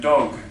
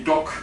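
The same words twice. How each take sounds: First: "dog" with a fully voiced final G; English dog. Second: "dok" with the final G devoiced to a hard K; "dok", the Dutch way of saying dog; Dutch final devoicing. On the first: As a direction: let the G at the end of "dog" buzz. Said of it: "instead of dog". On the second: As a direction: end "dok" on a crisp voiceless K. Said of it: "we tend to say dok instead of dog". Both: Shown as a demonstration.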